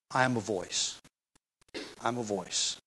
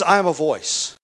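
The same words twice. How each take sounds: First: Much softer, lower humble repetition of voice. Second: Preacher voicing John's plain bold claim; emphatic self-description. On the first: Retold or imitated. Preacher voicing John humbly downplaying himself, softly. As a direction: step back and let the words shrink. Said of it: "put the preacher in the background". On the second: Preacher quoting John to the crowd, stressing I. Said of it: "He says".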